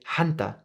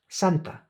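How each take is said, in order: First: The word begins with an h sound. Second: The word begins with an s sound. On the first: This is how Central Americans may say it. "some S sounds transformed into H" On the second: This is the standard form. "the word for saint is Santa"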